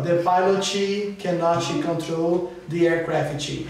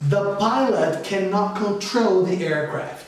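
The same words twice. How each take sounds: First: Extra vowels follow the final consonants. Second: Words end cleanly on their final consonants. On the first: The speaker calls it wrong. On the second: The speaker calls it right.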